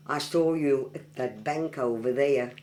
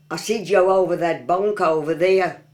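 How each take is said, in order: First: Said in the usual way. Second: Broad Black Country, louder; Black Country dialect. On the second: Shown as a demonstration. Local showing off a dialect phrase, broad Black Country. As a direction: say "bank" as "bonk", Black Country style.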